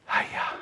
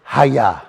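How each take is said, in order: First: Hayah breathed out almost silent, very soft; breathed out softly. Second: Said in the usual way. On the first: Shown as a demonstration. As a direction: let "Hayah" out as a breath, much softer. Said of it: "the word Hayah". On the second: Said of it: "bring you back to the word Hayah".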